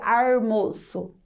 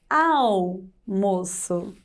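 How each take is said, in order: First: A country accent with an R sound replacing L. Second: Standard pronunciation with the L sound kept. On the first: The speaker calls it wrong. "Se eu fosse o Chico Bento, eu falaria almoço" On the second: The speaker calls it right. "o certo seria L"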